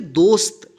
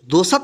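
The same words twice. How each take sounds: First: No vowel follows the s sound. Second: An extra 'a' vowel follows the s sound. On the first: The speaker calls it right. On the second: The speaker calls it wrong.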